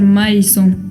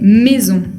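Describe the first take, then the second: First: The a and i are sounded as separate vowels. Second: The a and i merge into one open e. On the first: The speaker calls it wrong. "No quiero escuchar maison" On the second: The speaker calls it right. "sino que maison"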